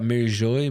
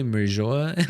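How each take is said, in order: First: "Merijoy" ending in a "joy" sound; trying a pronunciation. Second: "Merijoa" ending in two syllables, "jo-ah"; alternative pronunciation. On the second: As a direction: try "Merijoa" with an open "ah" at the end. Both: Real, not acted. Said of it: "I don't know how to say that".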